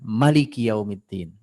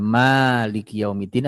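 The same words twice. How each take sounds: First: The vowel after the m is short. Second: The vowel after the m is long. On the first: God is the king. "Memnya panjang dan pendek" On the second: God is the one who owns. "Memnya panjang dan pendek"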